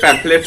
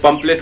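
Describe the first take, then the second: First: The middle consonant is an f sound. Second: The middle consonant is a plain p sound. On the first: The speaker calls it right. "लेकिन पैम्फलेट होता है" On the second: The speaker calls it wrong. "हम लोग उसको पंपलेट बोलते हैं"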